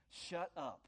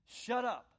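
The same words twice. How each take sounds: First: Said in the usual way. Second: Sharp order. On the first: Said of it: "way of just saying". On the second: Acted. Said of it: "He was saying".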